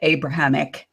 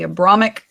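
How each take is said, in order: First: The word is said with four syllables. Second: The word is said with three syllables.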